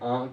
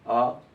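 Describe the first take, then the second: First: The vowel is said through the nose. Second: The vowel is said without the nose. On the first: "अनुनासिक जो नाक के स्वर से बोले जाते हैं" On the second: "निरनुनासिक में हमें नाक के स्वर की सहायता नहीं पड़ रही"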